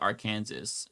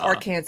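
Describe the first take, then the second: First: The name is pronounced just as it is spelled. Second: The name is pronounced the accepted, unspelled way. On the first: "they spell it like Arkansas" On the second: "tell us to call them"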